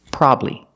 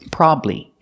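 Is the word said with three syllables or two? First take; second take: two; two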